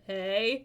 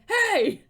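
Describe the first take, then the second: First: It is said at normal loudness. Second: It is shouted loudly.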